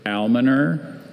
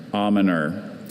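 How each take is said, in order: First: Almoner with the L sounded, AL-muh-ner; first pronunciation. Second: Almoner with a silent L, AH-muh-ner; alternate pronunciation. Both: Shown as a demonstration. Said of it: "could you repeat all the information".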